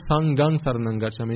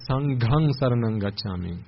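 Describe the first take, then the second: First: The g in Sanghang is plain, without breath. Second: The g in Sanghang has a breathy gh. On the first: The speaker calls it wrong. "It's not" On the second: The speaker calls it right. "it's ... Gha"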